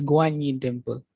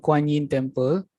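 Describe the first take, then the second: First: The name begins with a G sound. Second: The name begins with a K sound. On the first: This is the real pronunciation of the name. The speaker calls it right. "the right pronunciation is Guan Yin Temple" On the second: This is what the temple is commonly called. The speaker calls it wrong. "in Chinese we call it as a uh, Kuan Yin Temple"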